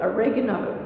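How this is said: It is said with an American pronunciation.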